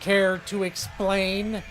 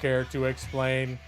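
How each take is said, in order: First: It is said in a normal natural voice. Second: It is said in a put-on robotic voice.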